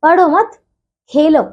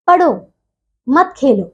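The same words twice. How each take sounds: First: "पढ़ो मत" as one group, clear pause, then "खेलो"; pause after मत. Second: "पढ़ो", clear pause, then "मत खेलो" as one group; "पढ़ो" set apart, falling, before "मत खेलो"; pause after पढ़ो. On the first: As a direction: split it after "मत", leaving "Khelo" on its own. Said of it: "जबकि दूसरा देखिए". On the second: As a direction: split it straight after "पढ़ो", keeping "मत" with "Khelo". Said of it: "तीनों में ही जब इनके निशान अलग अलग". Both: Shown as a demonstration.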